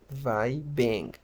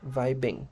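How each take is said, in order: First: "vibing" slowly split, VAI ... beng; slow second-vowel demo. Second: "vibing" joined up as VAI-beng; second-vowel demo. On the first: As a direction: separate "vibing" and lengthen the E-like beng. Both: Shown as a demonstration. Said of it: "la segunda I se pronuncia más como".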